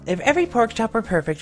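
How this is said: It is said in a natural everyday voice. "both in your normal voice"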